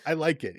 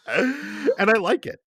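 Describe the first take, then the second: First: Said in the usual way. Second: High and slow, savouring it; a giddy confession; high drawn-out glee. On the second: Real, not acted. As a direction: stretch it out gleefully. Gleeful admission about the game.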